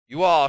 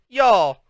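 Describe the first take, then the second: First: It is said as two plain, separate words. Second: It is said as one Southern-sounding word. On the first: "Instead of saying you all" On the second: "Mama started talking Southern style"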